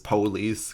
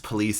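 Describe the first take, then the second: First: It is said in an African American English style. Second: It is said in a standard accent.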